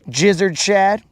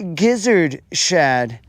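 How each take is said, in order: First: The name is said in a plain, ordinary way. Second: The name is said in a posh, affected way. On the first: It is said the way it is written. The speaker calls it right. "it clearly says gizzard" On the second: Someone else pronounces it this way. The speaker calls it wrong. "as these hoity-toities say"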